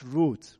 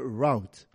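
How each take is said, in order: First: The word is said in a non-American pronunciation. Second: The word is said in an American pronunciation.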